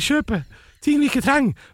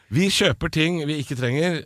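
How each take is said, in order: First: It is said in a squeaky northern accent. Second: It is said in a plain, normal voice. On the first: "nordlending med pipestemme" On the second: "jeg kan ta det på norsk også"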